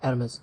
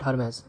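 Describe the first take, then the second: First: The word begins with a vowel sound. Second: The word begins with an h sound. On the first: The speaker calls it right. "এরমেস হয়" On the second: The speaker calls it wrong. "Not হারমেস"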